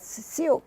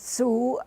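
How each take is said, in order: First: It is said following its spelling, like sigh-ox. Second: It is said as one syllable, like soo.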